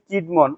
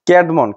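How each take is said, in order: First: The first vowel sounds like 'kid'. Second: The first vowel sounds like 'cad'. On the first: The speaker calls it wrong. "বাংলা ইয়াটা লিখছি কিডমন" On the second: The speaker calls it right. "সঠিক উচ্চারণটা হবে কেডমন বা ক্যাডমন"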